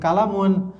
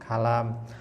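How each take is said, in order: First: The word ends with the vowel ending -un. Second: The word ends on a bare m consonant. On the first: "Ini kalamun" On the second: "tapi kita baca sukun"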